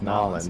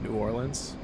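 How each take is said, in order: First: The name is squeezed into two short syllables. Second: The name is said in full, syllable by syllable. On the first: The speaker calls it right. "it's Nolans" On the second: The speaker calls it wrong. "you call it New Orleans"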